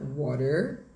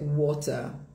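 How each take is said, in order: First: It is said in an American accent. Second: It is said in a British accent. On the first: "em inglês americano, veja que o finalzinho fica esse er" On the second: "O inglês britânico vai ser"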